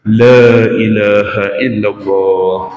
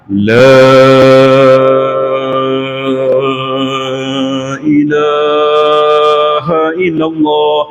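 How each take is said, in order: First: It is said at a moderate, even pace. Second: It is said very slowly and drawn out.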